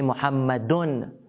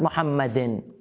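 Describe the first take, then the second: First: The name ends with an 'un' sound. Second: The name ends with an 'in' sound. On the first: The speaker calls it right. "They say Muhammadun" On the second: The speaker calls it wrong. "not Muhammadin"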